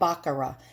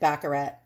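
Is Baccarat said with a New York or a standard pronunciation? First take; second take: standard; New York. First: The word has a standard pronunciation. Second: The word has a New York pronunciation. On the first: The speaker calls it right. "But it's really called Baccarat" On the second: The speaker calls it wrong. "I pronounce it Baccarat because I'm a New Yorker and we pronounce a lot of things wrong"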